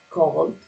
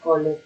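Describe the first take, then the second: First: The ending is said as a bare consonant. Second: The ending is said as an extra syllable. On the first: The speaker calls it right. "imaginando que esta E no suena" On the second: The speaker calls it wrong. "uno no lee esto, ni call it"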